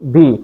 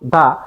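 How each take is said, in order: First: The word ends with an 'ee' vowel. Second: The word ends with an 'uh' vowel. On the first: It comes before a vowel. "ভাওয়েলের আগে উচ্চারণ করব দি" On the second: It comes before a consonant. "কনসোনেন্টের আগে উচ্চারণ করব দা"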